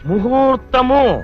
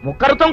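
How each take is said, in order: First: The word is said with an h sound. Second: The word is said with a kh sound. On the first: The speaker calls it right. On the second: The speaker calls it wrong.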